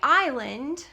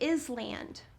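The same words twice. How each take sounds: First: It is said the ordinary everyday way. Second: It is sounded out the way it is spelled. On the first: This is how the word is normally spoken. "we say island" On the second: This helps the speller remember the letters. "when students spell, they would say island"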